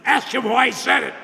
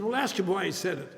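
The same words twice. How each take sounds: First: Louder, higher, insisting; firm insistence. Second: Said in the usual way. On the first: Retold or imitated. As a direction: repeat it firmly, no argument. Sponsor repeats, firmer.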